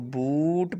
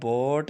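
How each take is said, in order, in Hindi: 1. स्वर एक लंबी 'oo' ध्वनि है। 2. स्वर एक 'oh' ध्वनि है। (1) "इसको बूट पढ़ना है" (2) "बोट नहीं पढ़ना, गलत हो जाएगा"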